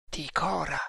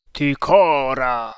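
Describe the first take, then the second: First: Soft murmur to oneself. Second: Loud, long-drawn call; mysterious voice crying out; cried out. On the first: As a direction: murmur the name, barely voiced. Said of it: "mormorò Tremal Naik". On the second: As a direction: call the name out slowly and loudly. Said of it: "gridò una voce". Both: A narrator's reading.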